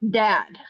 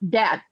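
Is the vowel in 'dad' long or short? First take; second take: long; short. First: The vowel is a long, drawn-out ah. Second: The vowel is short and clipped. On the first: This is how the speaker says it. "it's the long ah, and it, it's it's not clipped" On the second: This is how it is said in Indiana. "The A is very short. It's clipped"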